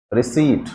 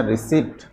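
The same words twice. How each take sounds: First: रिसीट with a long ee and a silent p; teacher models the right रिसीट; careful रिसीट, no p sound; correct pronunciation. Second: रिसिप्ट with the p sounded, a bit softer; students' wrong रिसिप्ट, p sounded; wrong pronunciation. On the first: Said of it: "इसका pronunciation क्या होना चाहिए". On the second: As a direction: mimic the students' mistake. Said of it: "विद्यार्थी जो हैं उसको क्या बोलते हैं". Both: Shown as a demonstration.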